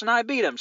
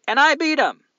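First: High, loud gloating; triumphant boast. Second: High, loud gloating cry; triumphant boast. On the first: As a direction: punch the win home, high and loud. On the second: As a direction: crow about your win, loud and high. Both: Real, not acted. Boasting about beating chopstick contest.

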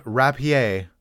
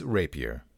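First: "rapier" French-style, ending in ay; RAP-ee-AY with a short a; wrong pronunciation. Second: "rapier" with long a, ending in er; RAY-pee-er, falling; correct pronunciation. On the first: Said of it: "It is not rapier". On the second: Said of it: "it is rapier". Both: Shown as a demonstration.

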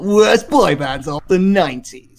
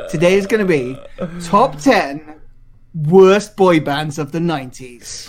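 First: Hammed-up radio presenter, swooping on the words; mock your own announcer delivery with a big swoop; Radio One voice. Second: Radio One voice. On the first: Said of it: "in a Radio One voice". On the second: Shown as a demonstration. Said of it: "I said it in a Radio One voice".

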